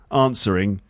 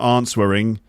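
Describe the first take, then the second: First: The W is silent in the word. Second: The W sound is pronounced in the word. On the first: The speaker calls it right. "It's got a silent letter in it... it's the W" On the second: The speaker calls it wrong. "so it's not answering, no"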